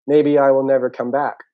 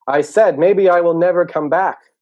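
First: Loud, higher, meant to be overheard; pointed announcement. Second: High, slow, very loud yell. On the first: Turtle leaving the sleeping pair, pointed loud announcement. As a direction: announce the threat for others to hear. Sulking turtle walks away, wanting notice. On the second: Turtle turning to the two sleepers, yelling. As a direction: yell it emphatically to wake them. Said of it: "So he turns around and yells". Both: Acted.

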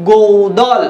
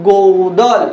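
First: গৌদল said with a clear ou glide; গৌদল with a full ou sound; diphthong demo. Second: গৌদল repeated with a clear ou glide; গৌদল with a full ou sound; diphthong demo. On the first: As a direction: say গৌদল slowly, showing the diphthong. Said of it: "দেখুন উচ্চারণটা". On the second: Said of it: "আপনারা আমার সাথে সাথে উচ্চারণ করুন". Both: Shown as a demonstration.

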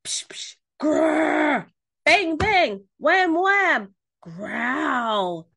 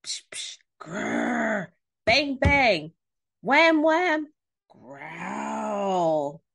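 First: Loud, higher bangs and growls; yelled monster noises. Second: Hushed psh, growly grr, bouncy bangs; imitated monster noises. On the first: A narrator's reading. Pig telling Duck how the monster goes, yelling. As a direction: act out the noises at full tilt. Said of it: "Pig yelled". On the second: Storyteller acting out the mysterious noise from Duck's house, imitated noises. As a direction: act out the strange noises, building then growling.

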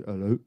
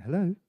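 First: Much lower, a gruff mock deep voice; deep-voiced caller. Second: Said in the usual way. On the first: Retelling the prank caller's opening hello in a deep voice. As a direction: drop into a big deep man's voice. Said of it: "this guy, real deep voice". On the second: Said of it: "I went".

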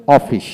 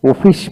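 First: অফিস with open "o", "aw-fish"; British pronunciation. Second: অফিস with closed "o", "oh-fish"; American pronunciation. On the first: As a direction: say অফিস starting "aw". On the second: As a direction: say অফিস starting "oh". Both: Shown as a demonstration. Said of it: "আমেরিকানরা".

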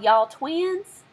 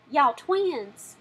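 First: Said in the usual way. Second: Y'all Twins drawn out in a Southern accent, higher. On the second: Shown as a demonstration. Showing viewers how to say the title in a Southern accent. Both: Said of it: "you have to say it with a Southern accent".

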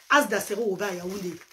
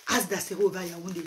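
Both takes have the same delivery.

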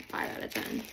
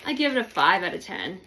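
First: Unvoiced whispered repeat; whispered aside. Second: Said in the usual way. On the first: Real, not acted. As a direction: whisper the score to yourself. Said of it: "whispered repeat". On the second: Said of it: "repeated rating".

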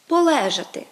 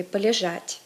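First: Полежати punched high and loud on -ЛЕ-; Ukrainian stress. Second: Полежать said palizhat, stressed on -ЖАТЬ; Russian end stress. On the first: Teacher gives Ukrainian form, полежати stressed on ЛЕ. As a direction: hit the LE of полежати. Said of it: "відмінність акцентуації". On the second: Teacher gives Russian form, полежать stressed on the ending. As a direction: land on the last syllable of полежать. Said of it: "відповідно до російської". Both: Shown as a demonstration.

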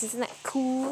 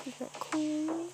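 First: Said in the usual way. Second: Soft, slow, put-on "Isn't that cool?"; slow hushed aside; mock whisper. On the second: Shown as a demonstration. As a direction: hush it out slowly like a secret. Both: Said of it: "repeated takes".

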